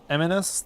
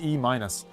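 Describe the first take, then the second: First: The name is run together as one word. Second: The name is said as 'E' then 'minus'. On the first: The speaker calls it wrong. "I've been calling him Eminus the whole time" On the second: The speaker calls it right. "but his name is E minus"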